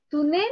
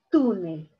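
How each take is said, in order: First: "Túnel" wrongly stressed on NEL, as tu-NEL, rising questioningly; stress on last syllable. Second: "túnel" stressed on TÚ, as TÚ-nel, falling after it; stress on first syllable. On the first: Teacher testing students with a wrong option, "Túnel" stressed tu-NEL. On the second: Teacher offering students the correct option, "túnel" stressed TÚ-nel. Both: Shown as a demonstration. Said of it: "Aquí está la mayor fuerza de voz".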